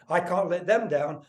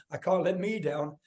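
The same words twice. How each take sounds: First: Slow line with the weight on "them"; stress on THEM. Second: Weight shifted onto "me"; stress on ME. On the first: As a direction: lean on the word "them". Contrasts them with me. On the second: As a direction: lean on "me" to contrast it. Contrasts me with them. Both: Retold or imitated.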